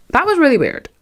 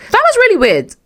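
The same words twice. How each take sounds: First: Said in the usual way. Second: High, loud shocked squeal; squealed disbelief. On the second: Shown as a demonstration. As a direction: shriek it in disbelief.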